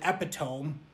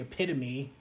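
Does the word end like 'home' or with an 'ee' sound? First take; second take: like home; ee sound. First: The word ends like 'home', three syllables. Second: The word ends with an 'ee' sound, four syllables. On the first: The speaker calls it wrong. "I'd also been mispronouncing other words" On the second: The speaker calls it right. "which is actually epitome"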